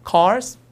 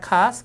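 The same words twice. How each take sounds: First: "cars" with the R sounded; American R. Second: "cars" with a long a and no R; R-less British. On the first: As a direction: pronounce the r in "cars" before the s. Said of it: "그게 아니라". ('cars'의 R을 살린 발음) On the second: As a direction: leave the r out of "cars". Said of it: "발음들이 좀 차이가 나서". ('cars'의 R을 빼고 길게) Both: Shown as a demonstration.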